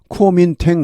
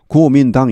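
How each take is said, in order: First: It is said in an American way, ending like 'tang'. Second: It is said in a Chinese way, starting 'go'. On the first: "대체로 제가 보니까 코민탱 하는 것 같습니다" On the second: "중국 발음 어떻습니까? 고민당이죠"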